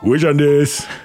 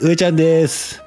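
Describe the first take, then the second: First: It is said as a Muten Roshi impression. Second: It is said in a raised, higher voice.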